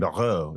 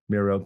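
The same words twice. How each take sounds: First: The name is said with a French pronunciation. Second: The name is said with an English pronunciation. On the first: "I want to put the French in it" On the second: "did I pronounce that right? I did"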